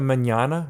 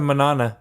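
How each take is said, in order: First: The middle n is a 'ny' sound. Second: The middle n is a plain n sound. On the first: The speaker calls it right. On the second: The speaker calls it wrong.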